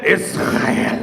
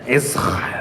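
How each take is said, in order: First: "Israel" breathed out unvoiced and falling; hushed "Israel"; whispered Israel. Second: "Israel" said very low, drawn out and falling. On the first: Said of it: "And he said". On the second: Retold or imitated. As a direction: drop "Israel" deep and slow with a falling end. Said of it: "And he said it like that".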